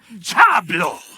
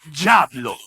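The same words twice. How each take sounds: First: It is said forcefully, with strong feeling. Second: It is said plainly, without strong feeling.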